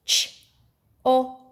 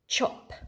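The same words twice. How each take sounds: First: "Ch-op" one sound at a time. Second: Said in the usual way. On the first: Shown as a demonstration. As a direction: separate "ch", "o" and "p" with pauses. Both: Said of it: "do it with your sound buttons".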